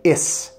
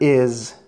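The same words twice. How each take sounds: First: The word ends with a hissing s sound. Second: The word ends with a buzzing z sound. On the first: The speaker calls it wrong. "Otherwise, you would say" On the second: The speaker calls it right. "never ends with an S sound"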